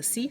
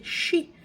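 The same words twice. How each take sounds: First: "si" with a clean s; "si" starting on plain s; correct syllable. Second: "shi" with sh for s; "shi" opening on a hushing sound; mispronounced syllable. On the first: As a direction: say "si" as see, with a hissed s. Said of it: "They can't say the si". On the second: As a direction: imitate "shi", said like she. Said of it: "so they say shi". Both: Shown as a demonstration.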